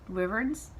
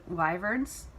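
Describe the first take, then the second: First: Wyverns? with a short WIV, rising doubtfully; "Wyverns?" with a short i, unsure rise. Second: Wyverns? with a questioning rise, /waɪvɚnz/; testing "wyverns?" with WHY; unsure wyvern. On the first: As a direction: try "Wyverns?" as WIV-erns, questioning. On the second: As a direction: try "wyverns?" like WHY-verns, rising doubtfully. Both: Shown as a demonstration. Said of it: "don't know how to say that word".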